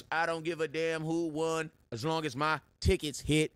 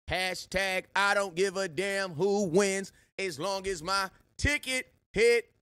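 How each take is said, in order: First: Said in the usual way. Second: Slower, higher and louder, every word of "I don't give a damn who wins" hit hard; slow emphatic slogan. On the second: Shown as a demonstration. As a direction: lay the catchphrase down like a chant, word by word.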